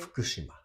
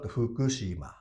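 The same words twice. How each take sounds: First: The u vowels are devoiced, barely heard. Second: The u vowels are fully voiced. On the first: The speaker calls it right. "these U uh, should not be pronounced" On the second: The speaker calls it wrong. "It's not Fukushima"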